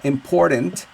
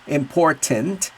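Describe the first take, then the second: First: The middle consonant is a soft D sound. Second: The middle consonant is a clear T sound. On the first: "with the D" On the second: "With the T"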